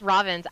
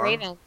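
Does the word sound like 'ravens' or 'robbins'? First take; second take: robbins; ravens. First: The word is said like English 'robbins'. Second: The word is said like English 'ravens'. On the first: The speaker calls it right. "It's Robbins" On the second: The speaker calls it wrong. "It's not Ravens"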